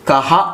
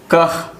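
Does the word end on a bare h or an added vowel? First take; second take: added vowel; bare h. First: The word ends with a vowel after h. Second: The word ends on a bare h sound. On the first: The speaker calls it wrong. "కహ అని పలకకూడదు" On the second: The speaker calls it right. "దీన్ని కహ్ కహ్ అని పలకాలి"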